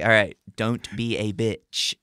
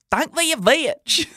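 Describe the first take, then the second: First: Said in the usual way. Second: High, squeaky and slow; mock his own squeaky teen voice; hammed-up squeaky kid voice. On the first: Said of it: "I was like". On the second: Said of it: "I can't have my voice sound like".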